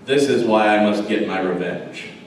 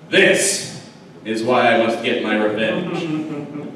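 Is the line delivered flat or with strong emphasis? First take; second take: flat; emphatic. First: It is said flatly, without much emphasis. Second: It is said forcefully, with strong emphasis.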